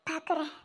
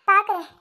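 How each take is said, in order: First: Bitter murmur. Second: Louder, firm, falling end; defiant vow. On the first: Heartbroken woman murmuring to herself, quietly. Muttered first, then repeated firmly. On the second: Wronged woman defying fate, loud and firm. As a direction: throw பாக்குறேன் out as a challenge. Repeated firmly after the murmur. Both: Acted.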